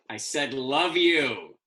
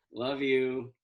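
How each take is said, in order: First: Slower and louder, leaning on you; grudging insistent love you; insistent repeat. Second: Said in the usual way. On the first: Acted. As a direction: say it again pointedly to mom.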